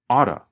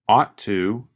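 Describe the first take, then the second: First: The words blend into one reduced 'oughta' form. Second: Both words are said fully with a clear T. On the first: "Ought to changes to oughta" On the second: "You can hear him pronounce the letter T"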